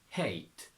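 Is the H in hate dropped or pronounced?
pronounced. The H sound is pronounced.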